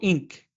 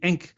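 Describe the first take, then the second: First: The first vowel sounds like 'in'. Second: The first vowel sounds like 'en'. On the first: "or ink" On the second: "you probably pronounce it Enk"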